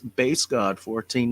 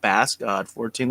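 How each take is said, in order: First: The first word rhymes with 'case'. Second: The first word rhymes with 'mass'. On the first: The speaker calls it right. "That's Bass God, like a bass guitar" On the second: The speaker calls it wrong.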